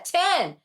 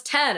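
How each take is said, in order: First: "ten" said like tin, higher; tin-like pronunciation. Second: "ten" with a short e; corrected pronunciation. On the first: Retelling being corrected, tin-like pronunciation. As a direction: insist on "ten" with a short i. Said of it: "That's what I said". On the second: Others correcting her vowel, corrected pronunciation. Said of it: "No, it's ten". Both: Retold or imitated.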